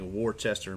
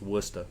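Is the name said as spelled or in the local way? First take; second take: as spelled; local way. First: The name is pronounced just as it is spelled. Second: The name is pronounced in its shortened local form. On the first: The speaker calls it wrong. "what looks like" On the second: The speaker calls it right. "but it's"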